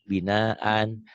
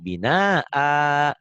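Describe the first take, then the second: First: The word ends with an n sound. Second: The word ends on a long vowel. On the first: The word is read as it is written, with tanwin. "ada kan binaan" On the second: The reader stops on the word. "Kalau dua gini dibacanya satu binaa"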